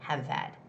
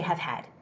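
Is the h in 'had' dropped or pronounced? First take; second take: dropped; pronounced. First: The h is dropped, linking the two words. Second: The h in 'had' is clearly pronounced. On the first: The speaker calls it right. "It's more like have had" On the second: The speaker calls it wrong. "Don't say have had"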